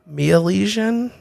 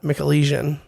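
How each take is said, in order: First: No k sound follows the opening M. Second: A k sound follows the opening M. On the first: Other people say it this way. "some some people say Mealesian" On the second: It follows the spelling of the name. "I'm saying what it looks like it's spelled"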